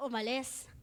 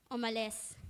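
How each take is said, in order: Both takes have the same delivery.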